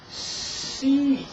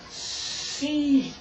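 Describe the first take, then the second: No difference in how they are said.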